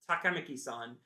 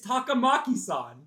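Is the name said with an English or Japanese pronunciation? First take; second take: English; Japanese. First: It is said with English-style pronunciation. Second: It is said with Japanese-style pronunciation. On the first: This is how the English dub says it. The speaker calls it wrong. "They go" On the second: This is how the name is really said. The speaker calls it right. "It's Takamaki-san. Just say it like that"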